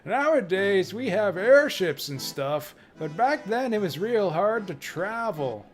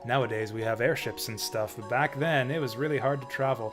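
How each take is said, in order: First: It is read in a Grandpa Simpson voice. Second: It is read in the speaker's normal voice.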